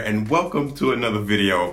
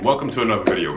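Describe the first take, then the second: First: It is said in a put-on presenter voice. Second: It is said in his natural everyday voice.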